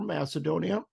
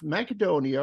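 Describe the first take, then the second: First: It is said in the usual American pronunciation. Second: It is said in a non-American pronunciation.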